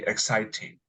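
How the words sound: It is said in a British accent. "they say exciting"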